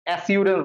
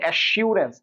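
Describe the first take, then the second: First: The s sound is said lightly, without force. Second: The s sound is said with extra force. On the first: The speaker calls it wrong. "Not অ্যাসিউরেন্স বলতেছি" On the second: The speaker calls it right. "কারণ আমরা জোর দিতেছি, আমরা বলছি অ্যাসিউরেন্স"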